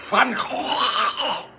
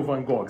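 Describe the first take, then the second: First: "Van Gogh" as Fan Khokh, long scraping throat fricatives; exaggerated Dutch pronunciation. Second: "Van Gogh" as Van GÓ-gui, hard g; Brazilian pronunciation. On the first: Teacher imitates the Dutch for viewers, exaggerated throaty pronunciation. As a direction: rasp both g sounds of "Van Gogh". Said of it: "é assim que eles falam". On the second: Teacher shows how Brazilians ask for the museum, Brazilian pronunciation. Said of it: "nós brasileiros". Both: Shown as a demonstration.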